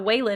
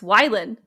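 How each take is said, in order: First: The first syllable sounds like 'way'. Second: The first syllable sounds like 'why'. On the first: The speaker calls it wrong. "His name's not Waylon" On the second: The speaker calls it right. "it's Wylan"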